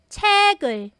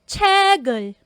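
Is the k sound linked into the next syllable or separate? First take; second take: linked; linked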